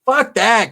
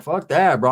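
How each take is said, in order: First: High-pitched, cocky brush-off; mock defiant outburst; old-days defiance. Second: Subdued, shrugged-off brush-off; understated, resigned dismissal; nowadays resignation. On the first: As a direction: throw it out like a cocky outlaw on the run. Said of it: "the mentality was". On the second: Acted. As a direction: let it go like accepting your fate. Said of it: "Nowadays, it's like".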